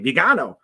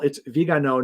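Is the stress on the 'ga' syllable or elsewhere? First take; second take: ga; elsewhere. First: The stress falls on the 'ga' syllable. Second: The stress does not fall on 'ga'. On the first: The speaker calls it wrong. "he kept putting the accent on the A" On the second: The speaker calls it right. "so first of all"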